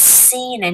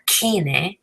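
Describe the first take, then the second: First: Cine as the teacher models it right; correct Spanish pronunciation. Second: "kine" with a hard k at the start, the mistake; the wrong version a learner might say; wrong hard k sound. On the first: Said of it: "not kine". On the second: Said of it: "It's cine, not kine". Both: Shown as a demonstration.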